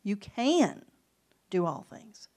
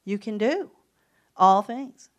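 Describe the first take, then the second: First: "can" lifted and leaned on, "do all things" dropped; emphasis on "can" in "You can do all things"; stress on CAN. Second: "all things" much louder after a pause; emphasis on "all" in "You can do all things"; stress on ALL. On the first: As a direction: push the word "can", let the rest fall away. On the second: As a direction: hold back, then hit "all" hard. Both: Shown as a demonstration. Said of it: "How about this?".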